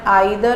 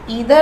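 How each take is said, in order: First: The first vowel sounds like 'eye'. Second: The first vowel sounds like 'ee'. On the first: "pronunciation आइदर और नाइदर भी होते हैं" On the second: "इन ईदर और नीदर के pronunciation"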